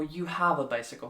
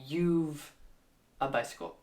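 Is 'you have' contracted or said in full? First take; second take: full; contracted. First: 'You have' is said in full. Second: 'You have' is contracted to 'you've'. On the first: The speaker calls it right. "the more standardized version is just you have" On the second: The speaker calls it wrong.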